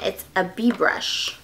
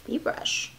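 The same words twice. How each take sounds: First: Said in the usual way. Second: Soft, voiceless repeat; whispered echo. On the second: Real, not acted. Vlogger puzzling over a bee brush, whispered echo. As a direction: murmur it under your breath.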